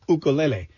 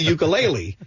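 First: It uses the native Hawaiian pronunciation. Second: It uses the common mainland American pronunciation. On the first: "in Hawaii, it's actually pronounced ukulele" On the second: "if I were talking to someone from, the mainland, I'd be like"

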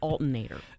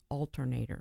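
First: One R sound is left out of the word. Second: Every R sound in the word is pronounced. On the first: The speaker calls it wrong. "I hear so many people say alternator" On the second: The speaker calls it right. "There's another R in there"

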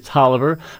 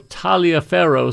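First: It is said the way it is really pronounced. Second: It is said the way some people pronounce it. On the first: The speaker calls it right. "but it is really Taliaferro" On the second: The speaker calls it wrong. "some people pronounce it"

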